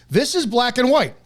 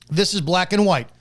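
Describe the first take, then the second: First: Higher and louder, hammered home; emphatic first take. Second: Said in the usual way. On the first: Real, not acted. Host insisting to viewers, emphatic and loud.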